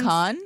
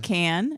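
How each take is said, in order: First: The vowel is an open 'ah' sound. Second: The vowel is a flat English 'a' sound. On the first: "It's not con" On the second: "and it's not can"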